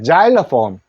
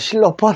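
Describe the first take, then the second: First: The word begins with a z sound. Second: The word begins with an s sound. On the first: The speaker calls it right. "G 소리 냅니다" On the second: The speaker calls it wrong. "실로폰 하지 않습니다"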